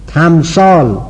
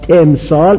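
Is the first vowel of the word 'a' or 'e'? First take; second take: a; e. First: The first syllable has an open 'a' vowel. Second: The first syllable has an 'e' vowel. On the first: The speaker calls it right. "همش اولش مفتوحه" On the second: The speaker calls it wrong. "اینا غلطه"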